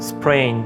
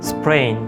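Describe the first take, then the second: No difference in how they are said.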